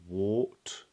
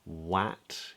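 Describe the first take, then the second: First: The vowel is an or sound. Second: The vowel is a flat a sound. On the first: "or wart" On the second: "we wouldn't say wat"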